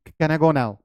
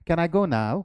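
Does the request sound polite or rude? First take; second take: rude; polite. First: The request is said in a blunt, impolite tone. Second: The request is said in a soft, polite tone. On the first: The speaker calls it wrong. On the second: The speaker calls it right.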